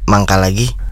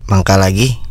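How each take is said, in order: First: It is said as if in stomach pain. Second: It is said in a sarcastic tone.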